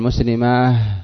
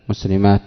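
First: The word ends with an h sound. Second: The word ends with a t sound. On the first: "قليلا جدا من العرب من يقف عليه بالهاء" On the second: "مسلمات بالتاء"

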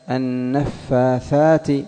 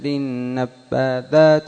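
First: The f sound flows out with audible breath. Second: The f sound is pressed hard with no breath. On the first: The speaker calls it right. "يجري معه النفس" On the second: The speaker calls it wrong. "يشد على نفسه"

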